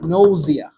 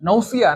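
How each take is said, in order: First: The middle consonant is a z sound. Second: The middle consonant is an s sound. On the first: The speaker calls it right. "উচ্চারণটা হবে নৌজিয়া" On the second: The speaker calls it wrong. "এটা কি নৌসিয়া না নৌজিয়া"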